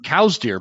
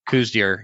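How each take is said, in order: First: The first word rhymes with 'now'. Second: The first word rhymes with 'moo'. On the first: "the correct, authentic way to say coos deer is by saying" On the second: "when you're talking coos deer"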